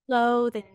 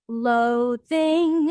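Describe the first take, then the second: First: The stress is on the first syllable. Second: The stress is on the second syllable. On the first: The speaker calls it right. "normally that second syllable would be a little lower in pitch" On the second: The speaker calls it wrong. "they went up on the second syllable"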